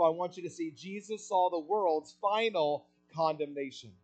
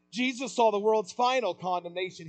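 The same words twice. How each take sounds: First: Said in the usual way. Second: "saw" pressed, whole line louder and higher; stress on saw. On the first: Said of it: "repeated line". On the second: Shown as a demonstration. Preacher repeating point to the church, stressing "saw". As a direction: lean hard on "saw" to hammer it home. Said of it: "repeated, louder".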